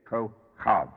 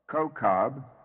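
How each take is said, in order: First: The middle consonant is a breathy ch. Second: The middle consonant is a hard k. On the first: "which has two pronunciations. In this case, it's Kochav" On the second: "the Hebrew being Kokab"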